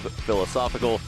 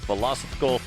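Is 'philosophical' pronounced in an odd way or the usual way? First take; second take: usual; odd. First: The word is pronounced in the usual way. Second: The word is pronounced in an unusual, odd way. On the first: The speaker calls it right. "instead of philosophical" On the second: The speaker calls it wrong. "I like saying philosophical instead of"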